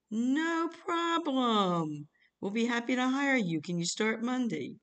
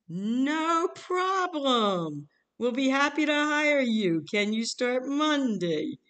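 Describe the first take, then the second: First: High, drawn-out sing-song reassurance; mock-eager, swooping slow pitch; enthusiastic caller. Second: Louder, higher, drawn-out sing-song; hammed-up eager recruiter, swooping and loud; over-eager caller. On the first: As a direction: stretch it out high and breezy, imitating an eager recruiter. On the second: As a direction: belt out the cheery reply, stretched way out. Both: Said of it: "calls back very enthusiastic".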